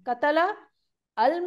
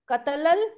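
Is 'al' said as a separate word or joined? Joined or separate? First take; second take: separate; joined. First: Al is said separately with its own vowel. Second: Al is joined to the previous word. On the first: "मैं अलग अलग करके पढ़ रही हूँ, हमजतुल वसल अल के साथ अल पढ़ रही हूँ।" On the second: "लेकिन जब मिला के पढ़ते हैं"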